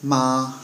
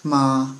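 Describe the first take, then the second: First: The pitch stays high and level. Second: The pitch stays high and level.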